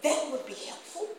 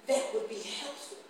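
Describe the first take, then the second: First: Hesitant, choked-up mimic of the man; imitating the salesman. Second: Slow, measured retelling of his words; slow quote. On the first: Preacher mimicking the salesman's halting thanks, hesitant. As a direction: put on the man's unsure voice. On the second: Retold or imitated. Preacher slowly quoting the grateful car salesman. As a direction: draw out the man's reply. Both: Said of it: "And then he wanna say".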